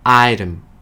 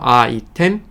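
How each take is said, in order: First: It is said with English pronunciation. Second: It is said with Korean loanword pronunciation. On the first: "영어로" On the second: "한국말로"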